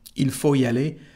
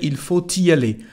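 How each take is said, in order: First: No T sound is heard after faut. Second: A T sound links faut to the next word. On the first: "without pronouncing the letter T" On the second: "if you want to make the liaison, there's no problem. You can say"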